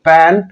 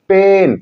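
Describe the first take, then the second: First: पैन with an open ऐ as in "cat"; short word without E. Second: पेन with a long, held ए; long A sound. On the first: Teacher reading the word without final E, पैन with open vowel. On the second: Teacher reading the word with final E, पेन stretched long. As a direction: draw out the ए in पेन. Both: Shown as a demonstration. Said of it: "हम ए का उच्चारण ए करते हैं".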